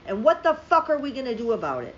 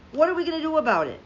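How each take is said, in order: First: Angry, hitting the word fuck hard; heated rhetorical question; furious question. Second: Fast, higher, louder repeat of the question; pleading fury, rushed; exasperated repeat. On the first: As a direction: demand an answer in frustration. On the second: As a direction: fire it back even harder. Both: Real, not acted. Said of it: "I'm so furious right now".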